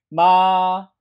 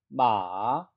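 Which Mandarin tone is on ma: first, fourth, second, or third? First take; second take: first; third. First: The pitch stays high and level. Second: The pitch dips low and then rises. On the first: "일성" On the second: "삼성"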